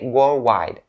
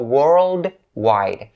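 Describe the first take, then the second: First: The D sound after 'world' is dropped. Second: The D sound after 'world' is pronounced. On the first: The speaker calls it wrong. "if you don't pronounce the D sound for the first syllable" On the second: The speaker calls it right. "But then you shouldn't skip it"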